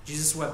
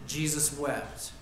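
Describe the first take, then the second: First: Wept given the weight, at normal pace; stress on wept. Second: Jesus stressed, said slowly and low; slow solemn stress. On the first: Preacher repeating the verse to the church, weight on wept. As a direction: land the word wept. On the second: Preacher reading the verse to the church, slow and solemn. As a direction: lean on Jesus, let it sink in slowly. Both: Shown as a demonstration. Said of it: "This is a different word".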